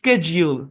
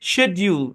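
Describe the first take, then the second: First: The word begins with an 'sk' sound. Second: The word begins with a 'sh' sound. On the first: "আমেরিকানরা করে স্কেজিউল" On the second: "ব্রিটিশরা উচ্চারণ করে শেডিউল"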